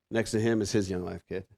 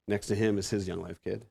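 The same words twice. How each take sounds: The two takes are said the same way.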